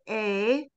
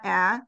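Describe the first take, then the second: First: The vowel sounds like the letter name A. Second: The vowel is a short A sound. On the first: The speaker calls it right. "the A is going to say A" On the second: The speaker calls it wrong. "not A"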